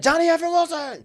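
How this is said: The name is said in an excited tone. He just made an amazing play.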